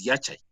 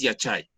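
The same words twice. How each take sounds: First: Yachay stressed on its first syllable, YA-chay; corrected Yachay, falling away after YA; penultimate stress. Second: Yachay stressed on its last syllable, ya-CHAY; wrong final stress. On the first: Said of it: "correctamente pronunciado". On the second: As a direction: push the accent to the end of Yachay. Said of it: "no es Yachay". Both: Shown as a demonstration.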